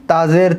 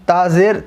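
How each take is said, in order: Both takes have the same delivery.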